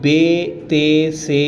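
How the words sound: The letter names end in an 'e' vowel. The speaker calls it wrong. "इस तरह उर्दू में जिस तरह पढ़ते हैं उस अंदाज में इसको नहीं पढ़ेंगे"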